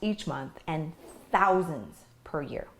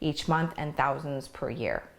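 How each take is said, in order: First: It is read with pauses and strong emphasis. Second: It is read quickly and flatly, without emphasis. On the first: The speaker calls it right. "when I added pausing and emphasis" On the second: The speaker calls it wrong. "I pretty much skimmed through all that. I didn't really show any kind of emotion"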